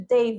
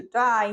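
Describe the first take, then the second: First: Said in the usual way. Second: "die" as Australian English says "day"; Australian accent. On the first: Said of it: "o australiano". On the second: Shown as a demonstration. Teacher showing how day changes in Australia, Australian accent. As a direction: demonstrate the Australian vowel shift in "die". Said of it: "day vira to die".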